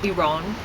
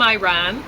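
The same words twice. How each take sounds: First: It is said the native way. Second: It is said the casual English way.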